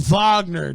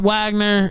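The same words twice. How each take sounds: First: The name begins with a V sound. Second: The name begins with a W sound. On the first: The speaker calls it right. "It's always been Wagner" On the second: The speaker calls it wrong. "Not Wagner"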